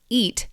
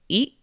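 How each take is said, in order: First: The final T sound is clearly released. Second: The final T becomes a glottal stop.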